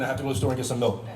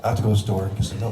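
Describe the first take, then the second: First: Quick, lightly voiced Oliver Queen; Oliver Queen impression. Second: Fast Oliver Queen take, rising at the end; Oliver Queen with hand move. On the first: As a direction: race through it as a hint of the hero. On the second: Retold or imitated. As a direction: deliver it quick, as a hint of the brooding hero. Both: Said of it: "This is Oliver Queen doing".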